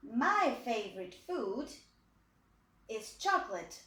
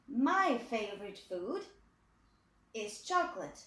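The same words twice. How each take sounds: The two takes are said the same way.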